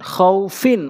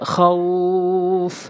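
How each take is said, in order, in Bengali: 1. শব্দটি 'fin' দিয়ে শেষ হয়, কোনো টান ছাড়া। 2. এটি 'f'-এ থামে, আর 'aw'-কে টেনে ধরা হয়।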